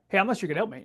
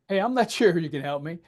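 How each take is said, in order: First: The phrase is said quickly. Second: The phrase is said slowly. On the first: The speaker calls it wrong. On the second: The speaker calls it right. "You have to say it slowly"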